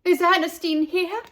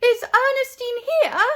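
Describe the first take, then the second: First: Higher, louder call into the pool hall. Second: High loud anxious call. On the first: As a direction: call out, searching for her. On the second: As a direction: call out across the room for her. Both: A narrator's reading. Parents calling out searching.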